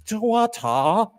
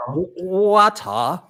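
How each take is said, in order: First: Slow, higher mock British accent. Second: Slow, higher mock Australian accent. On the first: Host retrying the British challenge, slow mock British accent. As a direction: stretch the word water in mock British. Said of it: "Do bottle of water". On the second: Host trying the bottle of water challenge, mock Australian accent. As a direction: stretch water out Australian style. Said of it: "that's a little bit more Australian".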